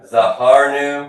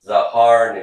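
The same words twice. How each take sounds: First: "Zahar nu" slow and a bit louder, each syllable clear; slow model for repetition. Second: Said in the usual way. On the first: Shown as a demonstration. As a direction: lay out "Zahar nu" slowly for the class to echo. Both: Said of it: "Everybody says to me".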